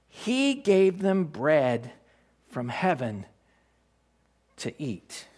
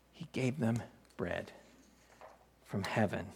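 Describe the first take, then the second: First: Scripture reading. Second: Softer repeat. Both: Shown as a demonstration. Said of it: "As it is written".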